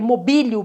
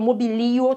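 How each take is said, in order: First: The stress falls on the syllable 'bi'. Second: The stress falls on the syllable 'li'. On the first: "Para algumas gramáticas teria o acento no bi, seria a sílaba forte" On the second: "também não está errado"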